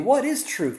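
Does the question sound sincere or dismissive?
sincere. It sounds like a sincere, curious question.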